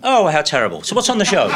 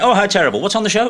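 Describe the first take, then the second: First: Said in the usual way. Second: Brisk offhand sympathy; a touch louder, careless; mimicking Aspel. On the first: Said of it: "He did it like that". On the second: Mimicking the host's reaction to a death, offhand. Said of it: "And he did it like".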